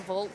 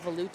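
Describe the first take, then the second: First: The name is said without a velouté-like ending. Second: The name is said like the sauce velouté. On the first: "I don't say Volt" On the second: "I say Volute, as in the sauce"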